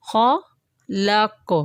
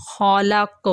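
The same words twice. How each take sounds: First: خالق drawn out slowly, final q strongly bounced; strong final qalqala. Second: Said in the usual way. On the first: Shown as a demonstration. Teacher shows word-final bounce to students: strong echo. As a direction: hold خالق long and release the end q hard. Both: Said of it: "با کی آواز زیادہ کیوں نکلی".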